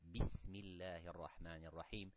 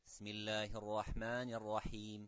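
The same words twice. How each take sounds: First: The opening b sound is clearly said. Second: The opening b sound is left out. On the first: The speaker calls it right. "which is the ba with a kasra" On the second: The speaker calls it wrong. "I have missed a great letter which starting with this basmala"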